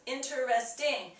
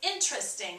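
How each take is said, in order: First: The word is said with four full syllables. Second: The word is said with only three syllables. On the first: The speaker calls it right. "with the ing would be four syllables" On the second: The speaker calls it wrong. "Most of the time people want to say"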